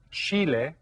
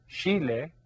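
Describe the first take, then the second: No difference in how they are said.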